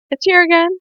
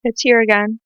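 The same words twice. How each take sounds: First: High, tearful voice; about to cry. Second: Said in the usual way. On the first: Real, not acted. Vlogger feels the tears return, about to cry. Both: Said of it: "I'm gonna cry again".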